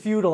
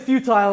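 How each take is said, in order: First: It is said with an American pronunciation. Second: It is said with a British pronunciation.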